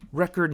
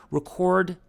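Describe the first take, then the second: First: Record said REH-kurd, stress on the first syllable; REcord as noun. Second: Record said rih-KORD, stress on the second syllable; reCORD as verb. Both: Shown as a demonstration. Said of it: "for the record or record".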